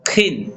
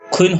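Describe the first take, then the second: First: A plain 'i' vowel follows the consonant directly. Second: A rounded 'u' glide comes before the vowel. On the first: The speaker calls it right. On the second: The speaker calls it wrong.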